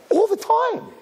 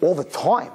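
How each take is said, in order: First: Very high, emphatic ALL THE TIME; shrieked admission. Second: Said in the usual way. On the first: Acted. Parent admitting she tells daughter, high emphatic ALL THE TIME. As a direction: squeal ALL THE TIME with zero shame.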